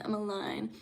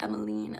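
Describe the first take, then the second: First: Emmeline ending like "line"; pronounced "-ine". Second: Emmeline ending in "-een"; pronounced "-een". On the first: Asking a viewer how the name is said, Emmeline with "-ine". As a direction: say Emmeline to rhyme with "fine". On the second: Asking a viewer how the name is said, Emmeline with "-een". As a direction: say Emmeline to rhyme with "keen". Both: Shown as a demonstration. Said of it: "pronounce it? Is it, like".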